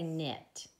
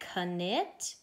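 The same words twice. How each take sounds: First: No 'k' sound is heard at the start of the word. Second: A 'k' sound is heard at the start of the word. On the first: The speaker calls it right. "or do we say knit? Yeah, we just say knit" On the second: The speaker calls it wrong. "Do we say knit"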